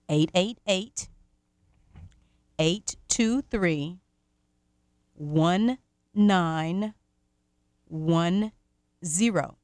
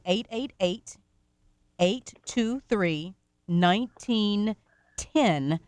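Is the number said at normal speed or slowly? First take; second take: slowly; normal speed. First: The number is said very slowly. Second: The number is said at normal speed.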